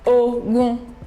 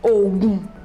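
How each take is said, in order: First: The pitch stays mid on both syllables. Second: The pitch stays low on both syllables. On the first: "Re, Re" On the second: "Do, Do"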